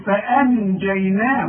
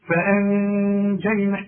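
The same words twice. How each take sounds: First: The n is pronounced clearly with the tongue. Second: The n is hidden with a nasal hum. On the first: The speaker calls it wrong. "اوعى تقول لي" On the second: The speaker calls it right. "اشربت كده وغن واخفي"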